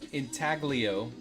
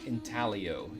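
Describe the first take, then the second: First: The G sound in the middle is pronounced. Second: The G sound in the middle is silent.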